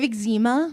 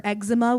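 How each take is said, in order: First: "eczema" stressed on the second syllable, ig-ZEE-ma; first pronunciation. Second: "eczema" stressed on the first syllable, EK-suh-muh; alternative pronunciation. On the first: Comic unsure of the word, "eczema" as ig-ZEE-ma. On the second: Comic offering the other option, "eczema" as EG-zuh-ma. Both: Shown as a demonstration. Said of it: "what's the actual pronunciation?".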